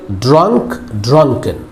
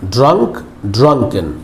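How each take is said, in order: Both takes have the same delivery.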